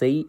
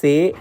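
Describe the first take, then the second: First: The vowel glides from e towards i. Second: The vowel stays steady without gliding. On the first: The speaker calls it right. "സെയ് എന്നാണ്" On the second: The speaker calls it wrong. "സേ എന്നൊന്നല്ല പറയേണ്ടത്"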